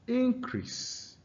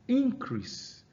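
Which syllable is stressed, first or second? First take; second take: first; first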